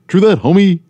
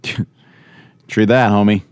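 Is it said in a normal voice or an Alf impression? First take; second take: Alf impression; normal voice. First: It is said in an Alf impression voice. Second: It is said in his normal voice.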